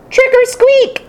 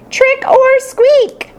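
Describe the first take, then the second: First: Hamster shout. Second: High, slow, drawn-out hamster shout; slow squeaky ghost cry. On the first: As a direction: shout it like a tiny ghost. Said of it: "began to shout like I've never shouted before". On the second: Hamster playing ghost for the class, slow squeaky cry. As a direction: stretch it out like a spooky little ghost. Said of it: "I cried". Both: Acted.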